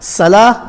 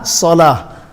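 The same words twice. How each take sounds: First: Salah with a thin s and light a; empty-mouth s in Salah; seen. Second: Salah with a heavy rounded s, like "solah"; full-mouth s in salah; sad. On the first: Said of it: "Salah is a seen". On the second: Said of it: "It's a very slight difference". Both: Shown as a demonstration.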